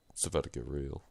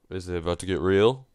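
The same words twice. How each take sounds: First: "It's about to get real" dropped low and soft; hushed statement. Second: "Is it about to get real?" rising to a question on REAL. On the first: Player answering own question about the twist, hushed statement. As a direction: answer quietly, stress on ABOUT, no question lift. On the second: Player wondering about the game's twist, questioning. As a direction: ask it, lifting the end on "real". Question, then restated as answer. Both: Real, not acted.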